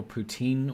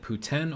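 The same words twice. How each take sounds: First: "poutine" with a long ee ending; alternative pronunciation. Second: "poutine" with a short vowel ending; alternative pronunciation. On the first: Streamer offering the other version, "poutine" ending in long ee. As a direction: say "poutine" as poo-TEEN. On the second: Streamer asking how to say it, "poutine" with short final vowel. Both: Shown as a demonstration. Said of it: "is it poutine or poutine".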